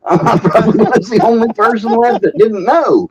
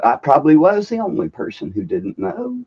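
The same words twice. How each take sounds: First: Higher and louder, laughing through the words. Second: Said in the usual way. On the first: Real, not acted. Guest laughing at his own ignorance, real laughter. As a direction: laugh at yourself while admitting it. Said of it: "you guys are laughing at me". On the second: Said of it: "said twice".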